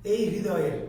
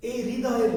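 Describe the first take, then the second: No difference in how they are said.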